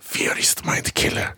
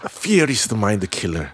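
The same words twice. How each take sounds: First: Very slow, hushed whispery recital; famous movie line. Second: Low, very slow, weighty English delivery; famous movie line. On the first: Asked to repeat the famous Dune line, slow dramatic whisper. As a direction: whisper the credo, drawing out each word. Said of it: "한 번만 더 해줘요". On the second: Host cues the famous Dune line with music, low solemn recital. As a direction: intone it low and drawn out, like a solemn credo. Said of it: "듄의 명대사, 지금 빅인 삼 번 가줘요". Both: Acted.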